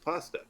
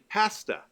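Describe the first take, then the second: First: The word has an American pronunciation. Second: The word has a Canadian pronunciation. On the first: "in America it's pasta" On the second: "in Canada we say pasta"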